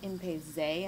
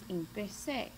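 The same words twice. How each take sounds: First: The middle consonant is a buzzing English z. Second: The middle consonant is a soft hissing s. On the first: The speaker calls it wrong. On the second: The speaker calls it right.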